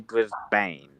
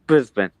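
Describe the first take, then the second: First: The last syllable has a full A vowel. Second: The last syllable has a reduced, weak vowel. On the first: The speaker calls it wrong. "You don't he- hear many people say Brisbane" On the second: The speaker calls it right. "You don't say the A"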